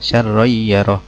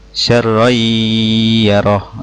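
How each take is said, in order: First: It is read with no nasal hum. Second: It is read with a long nasal hum. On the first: The speaker calls it wrong. "itu salah" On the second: The speaker calls it right. "yang betul"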